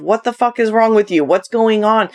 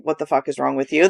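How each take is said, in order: First: Crass version. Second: Lower, softer, quick and affectionate despite the swear; loving version. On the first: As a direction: say "fuck" bluntly and plainly, no softening. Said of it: "my more crass version of". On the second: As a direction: say "fuck" gently, low and soft, like a tease. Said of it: "that's my lovingly way of saying". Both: Shown as a demonstration.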